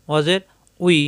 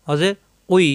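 Both takes have the same delivery.

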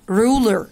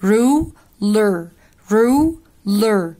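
First: Said in the usual way. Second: "Ruler" in two loud halves, roo, then ler; split in halves. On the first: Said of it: "نقسمها نصين". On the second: Shown as a demonstration. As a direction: break "Ruler" in two with a clear pause. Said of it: "نقسمها نصين علشان ما نتلخبطش". ("Ruler" نصين منفصلين بصوت أوضح)

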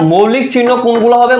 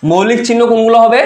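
The two takes are said the same way.

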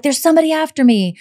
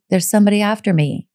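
First: Mock panicked caller; frantic panic. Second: Steady, even, fast repeat; understated calm statement; calm and matter-of-fact. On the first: Shown as a demonstration. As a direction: blurt it out like she's terrified. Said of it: "she's not like". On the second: Retold or imitated. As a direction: say it calmly like it's routine. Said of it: "somewhat calmly and quietly".

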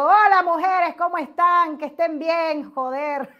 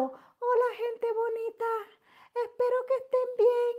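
First: Loud, brash hello to the ladies; her loud greeting. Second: High, sugary mock streamer greeting; mock sweet greeting. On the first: Retold or imitated. Showing followers how she really greets them, loud and brash. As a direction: greet them big and brassy. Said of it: "yo vengo y les digo". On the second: Mocking how other streamers greet their followers, high and sugary. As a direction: parody a dainty influencer hello. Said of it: "Nunca he hablado".

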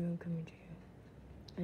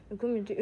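First: Slow spooky whisper, I'm coming to you; creepy whisper. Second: Said in the usual way. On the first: Pretend. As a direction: breathe it out slowly like a stalker. Taunting game character, whispered take.

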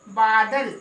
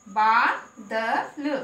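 First: Said in the usual way. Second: बा, द, ल one by one, बा held long; sounded out. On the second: Shown as a demonstration. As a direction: spell out बा, द, ल with a pause after each. (बा, द, ल अक्षर-अक्षर अलग करके) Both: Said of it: "उसको हम लंबा बोलेंगे".

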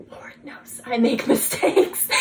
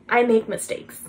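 First: Laughing admission. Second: Said in the usual way. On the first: Real, not acted. Admitting own faults to listeners, laughing. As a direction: laugh breaking into "mistakes".

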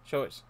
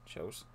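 First: Said in the usual way. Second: Choice said low and softly, almost under the breath; soft echo. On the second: Shown as a demonstration. Player echoing the NPC under the breath, soft.

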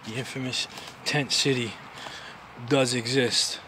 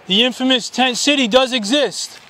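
First: Low, soft aside to the camera; quiet. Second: Higher, slow announcement to the camp; announcing. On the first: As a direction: murmur it to yourself. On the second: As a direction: proclaim it to the people there. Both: Real, not acted. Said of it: "repeats phrase louder".

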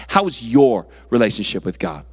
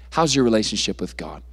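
First: "your" punched and set apart; stress on YOUR. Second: Said in the usual way. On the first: Real, not acted. Preacher turning it from parents to each listener, stress on "your". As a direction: lean hard on "your" in the question. Contrasts your with daddy's and mommy's.

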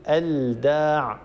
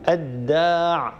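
First: الداع said slowly with the L of the article sounded before d; wrong pronunciation. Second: الداع drawn out slowly with the L turned into a doubled d; correct assimilation. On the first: Tajweed teacher shows what not to say, L sounded in الداع. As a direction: say "al-daa", a clear L left unmerged in الداع. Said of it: "ولا نقول". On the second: Tajweed teacher models lam becoming dal, slow "ad-daa" in الداع. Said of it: "اللام تتحول إلى الدال". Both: Shown as a demonstration.

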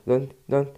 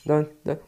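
Both takes have the same delivery.

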